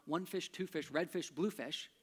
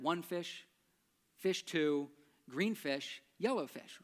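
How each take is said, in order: First: "one fish, two fish" in an even, linked beat; regular rhythm. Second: "one fish... fish two" halting, with pauses between; broken rhythm. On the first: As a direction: recite it as a flowing rhyme. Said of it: "It's easier to remember". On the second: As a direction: stumble through it piece by piece. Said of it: "that just doesn't work". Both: Shown as a demonstration.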